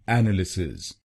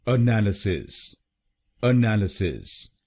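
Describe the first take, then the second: First: एनालिसिस said as "ennalisis", stress on the first syllable; the common wrong way, एनालिसिस with an open "e" at the start; wrong Indian pronunciation. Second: एनालिसिस said as "uh-NAL-uh-sis", weak first "uh"; correct pronunciation. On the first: A teacher showing the mistake, एनालिसिस said the wrong Indian way. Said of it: "काफी लोग इस शब्द को गलत बोलते हैं". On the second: A teacher giving the correct form, एनालिसिस said "uh-NAL-uh-sis". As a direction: stress on the second syllable of एनालिसिस. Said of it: "इसकी सही प्रोनाउंसिएशन है". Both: Shown as a demonstration.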